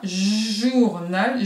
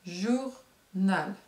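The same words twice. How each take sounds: First: "journal" joined up, with a lengthened "j" at the start; stretched initial J. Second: "Journal" as two separate beats, jour, nal; split into syllables. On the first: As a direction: lean on the opening buzz of "journal". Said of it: "si on le fait comme ça". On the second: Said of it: "Où se trouve le bruit du jet d'eau?". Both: Shown as a demonstration.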